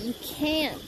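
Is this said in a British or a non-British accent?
non-British. It is said in the speaker's ordinary accent. "I said you can't"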